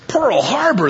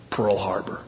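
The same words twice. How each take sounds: First: Much higher, indignant repeat; incredulous echo. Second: Low-key, softer deadpan reply; deadpan answer. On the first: Punched man echoes his attacker's excuse, incredulous. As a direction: throw it back in disbelief, pitch leaping up. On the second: Attacker explains his punch in a joke, deadpan. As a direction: state the grudge quietly, without fuss. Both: Acted.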